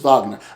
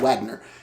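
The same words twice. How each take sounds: First: The name begins with a German V sound. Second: The name begins with an English W sound. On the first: The speaker knows the German pronunciation. The speaker calls it right. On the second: The speaker does not know the German pronunciation. The speaker calls it wrong. "in American, if they don't, if they didn't study music or don't know Germanic pronunciation, we just say Wagner"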